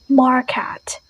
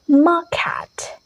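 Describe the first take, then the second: First: The R sound is clearly pronounced. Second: The R sound is left out. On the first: "and American is market" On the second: "this is British"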